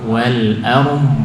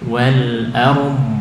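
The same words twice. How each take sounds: No difference in how they are said.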